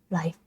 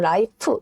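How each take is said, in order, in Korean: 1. 마지막 자음은 f 소리예요. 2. 마지막 자음은 p 소리예요. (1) "원래는 아랫니스를 지그시 깨물고" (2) "이 발음인데 이렇게 안 하고 라이프, 의 발음으로 갑니다"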